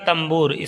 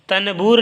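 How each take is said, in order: First: An m sound comes before the b. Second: An n sound comes before the b. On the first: The speaker calls it right. "लेकिन पढ़िएगा तंबूर, इस नून की आवाज़ को मीम में बदल दीजिएगा" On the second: The speaker calls it wrong. "तनबूर लिखा है"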